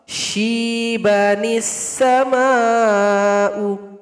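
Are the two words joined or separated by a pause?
joined. The words run together, linked by an ni. "Kalau wasal"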